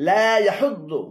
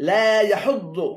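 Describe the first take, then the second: The two takes are said the same way.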